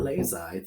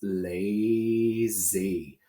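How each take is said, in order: First: The final Y sounds like 'eye'. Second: The final Y sounds like 'ee'. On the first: The speaker calls it wrong. "this is not lazy" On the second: The speaker calls it right. "the Y has to be E at the end to make a real word"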